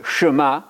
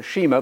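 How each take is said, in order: First: "Shema" said shuh-MAH; corrected pronunciation. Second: "Shema" said SHEE-muh; mistaken pronunciation. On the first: Preacher corrects the mistaken reading, "Shema" as shuh-MAH. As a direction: say "Shema" with a short first vowel, as shuh-MAH. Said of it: "but the Shema". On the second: Preacher shows the mistaken reading, "Shema" as SHEE-muh. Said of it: "not the Shema". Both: Shown as a demonstration.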